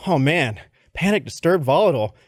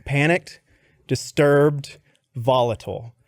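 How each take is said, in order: First: Mock dismay. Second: Reading word by word, long pauses; halting read-out. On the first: Boss repeats the candidate's weaknesses back, in mock dismay. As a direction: boss running through the list in one go. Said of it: "He goes". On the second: Retold or imitated. Candidate reads his weaknesses to the boss, halting. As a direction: read each word out separately, stepping down at the end. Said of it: "and it says".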